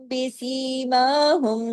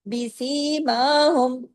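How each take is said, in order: Both takes have the same delivery.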